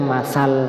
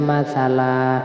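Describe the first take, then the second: First: The word ends abruptly on a consonant. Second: The word ends on a lengthened vowel. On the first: The speaker calls it wrong. "Nggak boleh dibaca masal" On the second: The speaker calls it right. "dibaca masalah ... mad iwad"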